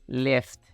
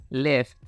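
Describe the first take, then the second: Both takes have the same delivery.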